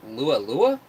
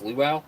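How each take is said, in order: First: "lua lua" said as two slow syllable pairs, loo-ah loo-ah; wrong guess at luau. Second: "luau" said as loo-ow, ending in ow; corrected luau. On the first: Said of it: "Am I pronouncing that correct?". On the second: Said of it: "Oh, it's a luau?". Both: Shown as a demonstration.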